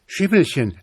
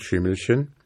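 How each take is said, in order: First: Put-on boy calling his horse in alarm. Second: Put-on gentle rising "Schimmelchen?" from a worried boy; pitying. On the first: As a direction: urge "Schimmelchen" on in a high, pressing call. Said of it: "rief der Junge". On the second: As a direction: coax "Schimmelchen" with pity, lifting at the end. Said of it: "fragte der Junge mitleidig".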